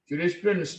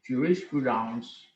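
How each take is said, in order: First: It is pronounced the English way. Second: It is pronounced the French way. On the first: "Jurisprudence in English is a study of law" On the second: "the same spelling but different pronunciation"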